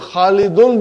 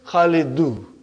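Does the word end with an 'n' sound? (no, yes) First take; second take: yes; no. First: The word ends with a final n sound. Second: The word ends in a vowel without n. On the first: "loses its tanween" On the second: "The one dhamma of tanween is gone"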